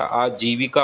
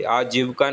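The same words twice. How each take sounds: First: आजीविका said as "aa-jee-vi-ka", vi sounded; correct pronunciation. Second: आजीविका said as "aajivka", middle i dropped; wrong pronunciation. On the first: Teacher repeating the correction, आजीविका pronounced "aa-jee-vi-ka". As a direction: keep four syllables in आजीविका. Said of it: "आजीविका होता है". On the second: Teacher repeating the mistake, आजीविका mispronounced as "aajivka". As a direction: drop the i of vi in आजीविका. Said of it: "आजीविका नहीं होता". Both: Shown as a demonstration.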